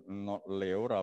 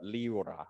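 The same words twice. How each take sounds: First: "Leora" said as lay-OH-ra, open e; wrong pronunciation. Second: "Leora" said as lee-OH-ra, ee sound first; right pronunciation. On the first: Teacher says the student's name first as lay-OH-ra. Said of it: "but Leora". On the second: Teacher corrects himself, saying the student's name as lee-OH-ra. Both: Shown as a demonstration.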